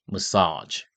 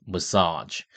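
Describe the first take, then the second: Both takes have the same delivery.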